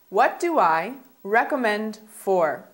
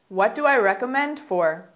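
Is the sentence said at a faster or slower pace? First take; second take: slower; faster. First: The sentence is spoken at a slower pace. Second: The sentence is spoken at a faster pace.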